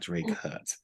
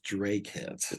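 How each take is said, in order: First: The second syllable sounds like 'hut'. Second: The second syllable sounds like 'hit'. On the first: The speaker calls it wrong. "not Drake Hut" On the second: The speaker calls it right. "It is Drake Hit"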